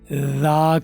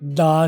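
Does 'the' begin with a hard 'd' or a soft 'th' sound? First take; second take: soft th; hard d. First: It begins with a soft 'th' sound. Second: It begins with a hard 'd' sound. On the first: The speaker calls it right. "तो दा करना है" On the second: The speaker calls it wrong. "दा नहीं करना, गलत है वो"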